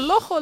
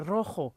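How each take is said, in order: First: The word starts with an L sound. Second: The word starts with a rolled R sound. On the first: The speaker calls it wrong. "todo el mundo diciendo, lojo" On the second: The speaker calls it right. "la única china que me ha dicho R, rojo"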